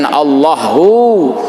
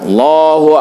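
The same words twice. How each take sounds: First: The final 'hu' vowel is drawn out long. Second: The final 'hu' vowel is short. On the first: The speaker calls it wrong. "jangan ditasdik, jangan Allahu" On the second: The speaker calls it right. "hu-nya satu"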